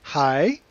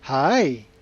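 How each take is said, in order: First: The pitch rises through the word. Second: The pitch dips down and then rises. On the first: "You've got a rising tone" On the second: "kind of a roller coaster tone"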